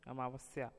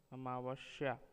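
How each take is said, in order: First: Said in the usual way. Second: अमावस्या said as "amaavashya"; अमावस्या with a hushing sh; wrong pronunciation. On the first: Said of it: "शुद्ध शब्द". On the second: Shown as a demonstration. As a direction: put sh for s in अमावस्या. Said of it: "अशुद्ध शब्द".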